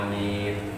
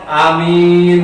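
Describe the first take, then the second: First: It is said softly and flatly. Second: It is said loudly and eagerly.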